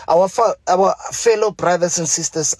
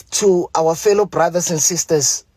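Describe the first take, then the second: First: Mumbling through "fellow brothers and sisters"; mumbled false start. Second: Said in the usual way. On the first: Real, not acted. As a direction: stumble on "fa-", then restart at "our fellow". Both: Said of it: "I'm mumbling".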